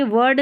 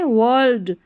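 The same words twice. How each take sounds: First: "वर्ड" without an L, "vurd"; "वर्ड" as in "word"; wrong reading. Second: "वर्ल्ड" with the L sounded before D; "वर्ल्ड" with a clear L; correct reading. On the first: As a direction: say "वर्ड" with no L before the D. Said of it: "वर्ड नहीं है". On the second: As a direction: say "वर्ल्ड" as "vurld". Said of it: "वर्ल्ड है ये". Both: Shown as a demonstration.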